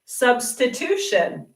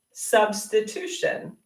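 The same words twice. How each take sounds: First: Substitution said slowly, syllable by syllable, falling at the end; slow clear demo. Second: Substitution said slowly again with a rising end; slow demo repeat. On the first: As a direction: model Substitution slowly for the class to copy. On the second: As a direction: repeat Substitution slowly, letting the tune rise. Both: Shown as a demonstration. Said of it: "So the teacher will do a substitution".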